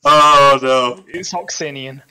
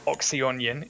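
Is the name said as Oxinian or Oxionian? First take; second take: Oxinian; Oxionian. First: The name is said as Oxinian. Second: The name is said as Oxionian. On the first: The speaker calls it right. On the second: The speaker calls it wrong. "you've been calling him Oxionian"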